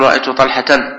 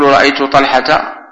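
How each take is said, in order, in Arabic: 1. الاسم ينتهي بصوت النون في آخره. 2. الاسم لا ينتهي بصوت النون في آخره. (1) "ولا نقول" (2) "ونقول"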